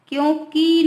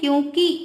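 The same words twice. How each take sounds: First: The final 'i' vowel is long. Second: The final 'i' vowel is short. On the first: The speaker calls it wrong. "क्योंकि नहीं" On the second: The speaker calls it right. "छुट्टी की मात्रा"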